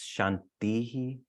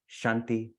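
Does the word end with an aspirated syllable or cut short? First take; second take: aspirated; cut short. First: The word ends with an extra breathy syllable. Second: The word ends short without the breathy syllable. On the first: The word stands by itself. "when you pronounce it by itself, it's Shantihi. There's this aspiration on the end" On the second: The word is followed by another in a sequence. "when you chant them consecutively, you shorten the, the I"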